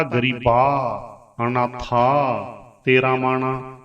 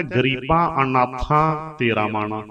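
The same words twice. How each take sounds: First: ਗਰੀਬਾ ਅਨਾਥਾ said with plain open ਆ, no nasal; wrong oral ending. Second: ਗਰੀਬਾਂ ਅਨਾਥਾਂ with the final ਆਂ clearly nasalised; correct nasal ending. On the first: Teacher demonstrates the mistaken reading: ਗਰੀਬਾ ਅਨਾਥਾ without nasal. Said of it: "ਅਨਰਥ ਹੋ ਗਿਆ". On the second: Teacher shows students the right reading: ਗਰੀਬਾਂ ਅਨਾਥਾਂ nasal. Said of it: "ਇਹਦਾ ਸ਼ੁੱਧ ਉਚਾਰਨ ਹੋ ਗਿਆ". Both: Shown as a demonstration.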